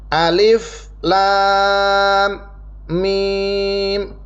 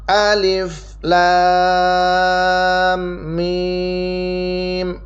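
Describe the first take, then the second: First: Each letter name is cut off by a pause. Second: The letter names run together without pauses. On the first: "disukunkan atau diputuskan, ya. Jadi nggak disambung" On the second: "Yang biasa kita pakai kebanyakan"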